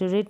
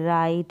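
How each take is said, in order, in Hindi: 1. यह स्वर छोटा i ध्वनि है। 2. यह स्वर एक सरकती हुई ai ध्वनि है। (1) "रिट नहीं पढ़ेंगे" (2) "आई करके प्रोनाउंस करेंगे"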